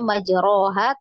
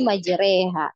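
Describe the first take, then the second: First: The vowel after r is a full open a. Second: The vowel after r is tilted toward e. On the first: The speaker calls it wrong. "Kita bukan bacanya majroha" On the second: The speaker calls it right. "tapi majreha"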